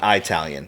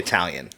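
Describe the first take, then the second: First: The first vowel is a long "eye" sound. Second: The first vowel is a short "ih" sound. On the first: The speaker calls it wrong. "hard I" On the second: The speaker calls it right. "we would just say Italian"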